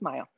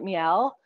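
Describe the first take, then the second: First: The name is said with a plain, non-French pronunciation. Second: The name is said with a French-style pronunciation. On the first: The speaker calls it right. "But it's just Mile" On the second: The speaker calls it wrong. "oh, is it French?"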